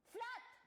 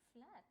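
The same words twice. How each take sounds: First: It is said in an angry tone. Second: It is said in a sarcastic tone.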